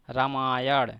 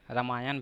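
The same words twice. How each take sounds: First: रामायण ending in a retroflex flapped ण, nearly ड़; formal रामायण with a hard retroflex ending; retroflex final ण. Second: रामायण ending in a simple dental n, as रामायन; everyday रामायन with no retroflex ending; common pronunciation. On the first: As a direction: say रामायण with the tongue curled back on the final sound. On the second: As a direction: say रामायण the everyday way, tongue forward on a final n. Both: Shown as a demonstration. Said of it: "ज़्यादातर लोग इसे रामायण भी कहते हैं".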